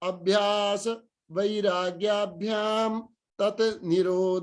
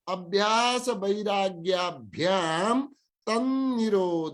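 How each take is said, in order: First: The words 'tat' and 'nirodha' are said separately. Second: The words are joined, with 't' becoming 'n'. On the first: "हामीले अलग अलग यदि माथिको बोल्न आएन भने यसरी पढौं" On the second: "माथि यदि पढ्न सक्छौं भने"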